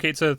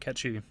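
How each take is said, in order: First: The name ends in an English 'sith' sound. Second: The name ends in a Gaelic 'shee' sound. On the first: "it's kind of weird to just call him Cait Sith" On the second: "it probably should be catchy if you're going to do the whole Scottish accent thing"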